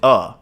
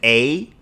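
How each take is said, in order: First: The vowel is a short, reduced 'uh' sound. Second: The vowel is a full, long 'ay' sound. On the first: "or you will pronounce it uh" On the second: "You may pronounce it A like that"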